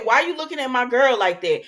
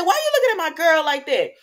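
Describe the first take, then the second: First: Louder, challenging jealous demand; mock confrontation. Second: Louder, higher and fast challenge; heated mock confrontation. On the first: Retold challenge to Liam, louder and confrontational. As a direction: call him out for staring at your girl. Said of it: "I looked at him and I said". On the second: Vlogger replaying her challenge, higher, louder, fast. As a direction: fire it at him like a jealous rival. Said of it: "so I said".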